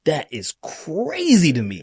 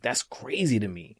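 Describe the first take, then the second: First: CRAZY stretched out and pitched up high; slow it down and lean hard on "crazy"; emphatic disbelief. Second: Said in the usual way. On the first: Real, not acted. Repeats own verdict with emphasis.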